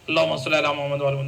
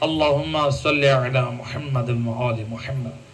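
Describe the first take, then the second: First: It is recited quickly and rushed. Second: It is recited slowly and clearly.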